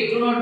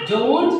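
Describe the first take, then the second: First: Said in the usual way. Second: "don't" as one drawn-out syllable; native-style contraction. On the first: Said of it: "do not বলে না". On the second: Shown as a demonstration. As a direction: say "don't" as English speakers contract do not. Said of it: "সে বলে কি".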